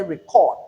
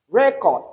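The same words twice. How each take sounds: First: ReCORD, weak first syllable, strong second; verb stress on second syllable. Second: RECord, high first syllable, falling second; noun stress on first syllable. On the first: Teacher showing the action word, second syllable stressed in record. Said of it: "it is an action". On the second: Teacher naming a concept, first syllable stressed in record. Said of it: "we are naming a concept". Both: Shown as a demonstration.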